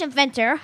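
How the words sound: It is said in a put-on Scottish accent.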